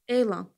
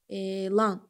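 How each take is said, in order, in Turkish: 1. Vurgu birinci hecededir. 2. Vurgu ikinci hecededir. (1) "Demirik ki" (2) "a-nı da vurğulu deyək"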